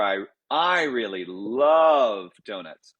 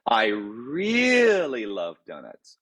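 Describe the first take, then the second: First: Love stretched and leaned on, slow; stress on LOVE. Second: Really drawn out and lifted, slow; stress on REALLY. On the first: Composer demonstrating stress moved onto love. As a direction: draw out love, the rest easy. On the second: Composer showing how stress on really changes meaning. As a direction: stretch really, slow and sung-like. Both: Shown as a demonstration. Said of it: "I could say".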